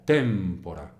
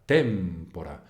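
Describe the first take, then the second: No difference in how they are said.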